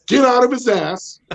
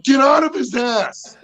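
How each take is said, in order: First: High yell at the dogs. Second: High, slow, laughing shout; dog yell. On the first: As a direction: holler it at the dog. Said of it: "the three things that I pretty much yell". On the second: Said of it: "I'm like". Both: Retold or imitated.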